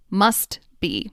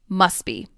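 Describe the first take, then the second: First: The final T of must is clearly pronounced. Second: The final T of must is dropped. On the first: The speaker calls it wrong. "I enunciated each word, meaning I carefully pronounced each sound" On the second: The speaker calls it right. "The T at the end of must disappears"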